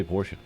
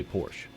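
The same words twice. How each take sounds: First: "Porsche" as POR-shuh; two-syllable pronunciation. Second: "Porsche" as PORSH; one-syllable pronunciation. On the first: Co-host giving own usual version, "Porsche" as POR-shuh. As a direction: sound the final e of "Porsche" as uh. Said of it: "I always say Porsche". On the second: Co-host quoting what others say, "Porsche" as one syllable. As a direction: drop the final e of "Porsche", ending on sh. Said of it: "I've heard countless people say". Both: Shown as a demonstration.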